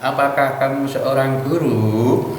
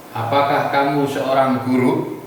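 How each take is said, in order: First: Unhurried question with a long, swaying "guru"; Javanese-style intonation. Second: "guru" short with a rising end; English-style intonation. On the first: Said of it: "biasanya orang Jawa". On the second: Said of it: "ke atas atau ker-, keras". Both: Shown as a demonstration.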